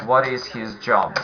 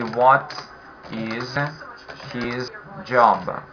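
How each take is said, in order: First: Said in the usual way. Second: Each word set apart by pauses, falling on "job"; slow, word by word. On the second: Shown as a demonstration. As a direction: drill it slowly: "What ... is ... his job?". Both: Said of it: "the whole sentence will be".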